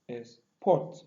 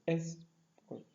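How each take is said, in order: First: The stress is on the second syllable. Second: The stress is on the first syllable. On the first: "in the second pronunciation, the second syllable is what? Stress" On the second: "export is a noun. So the first stress, the first syllable is stressed"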